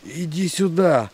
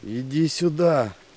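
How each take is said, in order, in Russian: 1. Произнесено громче всех, почти криком. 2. Произнесено немного громче, чем раньше. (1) "Егерь еще громче" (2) "Он говорит погромче"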